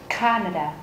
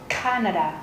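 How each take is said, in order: The two takes are said the same way.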